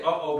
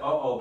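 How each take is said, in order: First: It sounds fearful, like being in trouble. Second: It sounds weary, like 'here we go again.'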